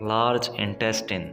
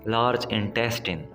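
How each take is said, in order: The two takes are said the same way.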